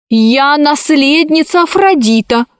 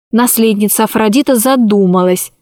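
First: High, prim voice of a spoilt heiress; haughty little girl. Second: Said in the usual way. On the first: A narrator's reading. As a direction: play a bossy little princess. Heiress child voice.

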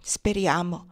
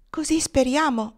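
First: Pensive. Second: Put-on high, hopeful girlish voice; hopeful young girl. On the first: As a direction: let the word sink, pensive. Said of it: "diventato pensoso". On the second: Blonde girl to her sweetheart, hopeful and high. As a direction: say it like a prayer, pitched high. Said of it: "mormorò la biondina congiungendo le mani". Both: A narrator's reading.

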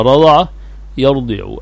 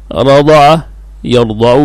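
First: رضع يرضع as rada'a, yardi'u; kasra in the present. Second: رضع يرضع as rada'a, yarda'u; fatha in both verbs. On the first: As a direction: say يرضع with an "i" on the Dad after an "a" in رضع. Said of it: "لم يسمع الفتح فيهما معًا". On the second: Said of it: "بالفتح فيهما". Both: Shown as a demonstration.

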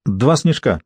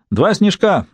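First: Said in the usual way. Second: Higher-pitched call across the bar; mild shout. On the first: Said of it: "сказала Бриджит". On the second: A narrator's reading. Julian calls an order to the barman, mild shout. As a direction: call the order out brightly, without full force. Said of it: "крикнул Джулиан бармену".

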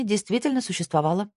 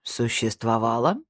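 First: "действительно существовала" as a higher-pitched statement; factual statement. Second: "Существовала" low, then sharply rising at the end; echo question. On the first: Mia reporting on the law firm, "существовала" stated as fact. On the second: Snijder questioning the past tense, "Существовала" as rising question. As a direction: query the word "Существовала" with a steep final rise. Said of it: "спросил Снейдер". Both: A narrator's reading.

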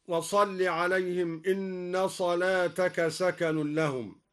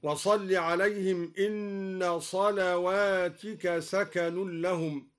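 First: Said in the usual way. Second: صلواتك read with a waw after the lam, selawatika; plural reading. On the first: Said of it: "وكسر التاء على الجمع هكذا". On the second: Shown as a demonstration. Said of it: "قرأ الدوري بواو بعد اللام وكسر التاء على الجمع هكذا".

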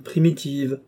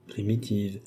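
First: "primitives" offered firmly, slightly raised; emphatic suggestion. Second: "Primitives" repeated softly, pitch dropped; subdued echo. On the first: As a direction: propose "primitives" as the better word, lifted. King gropes for the word. (« primitives » lancé avec assurance, un peu plus haut) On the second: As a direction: echo "Primitives" quietly, as if weighing it. Same word echoed doubtfully, lower. (« Primitives » répété tout bas) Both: A narrator's reading.

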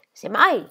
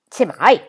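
First: Said in the usual way. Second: Semmai gasped out, louder; Semmai, shocked and breathless; breathless exclamation. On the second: A narrator's reading. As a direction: blurt Semmai out in surprise. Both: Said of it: "esclamò Molly senza fiato".

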